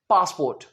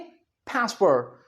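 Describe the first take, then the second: First: It is said with a British accent. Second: It is said with an American accent.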